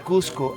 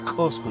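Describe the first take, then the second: First: The first vowel sounds like 'oo'. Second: The first vowel sounds like 'oh'. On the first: The word does not exist. The speaker calls it wrong. "I don't say Cusco" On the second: The word means central neighbor. The speaker calls it right. "I say Cosco"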